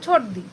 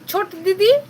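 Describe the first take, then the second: First: The last word is cut to one syllable, di. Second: The last word keeps both syllables, di-di. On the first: "সেটা থেকে হয়ে গেল ছোট দি" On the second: "ধরো ছোট দিদি"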